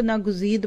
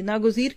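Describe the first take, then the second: First: नागुजीद ending wrongly in "d" instead of "r"; common misreading. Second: नागुजीर ending in a clear "r"; correct reading. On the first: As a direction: say नागुजीद as "na-guzeed", final d sound. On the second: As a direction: say नागुजीर as "na-guzeer", final r sound. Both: Shown as a demonstration. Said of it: "कई लोग इसको नागुजीद पढ़ते हैं".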